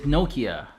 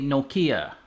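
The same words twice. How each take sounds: First: The name is said in its original pronunciation. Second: The name is said in an American pronunciation. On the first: "The proper way to pronounce the name is" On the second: "In the U S, we usually say"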